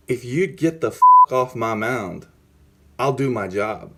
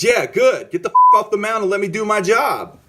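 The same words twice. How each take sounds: First: Measured, deliberate threat, retold; retold stern warning. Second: High, loud retold yell; acted-out furious blow-up, pitched way up; angry outburst. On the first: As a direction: order the manager away without raising your voice. Retold telling-off of his manager. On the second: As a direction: shout the manager off your turf. Retold blow-up at his manager.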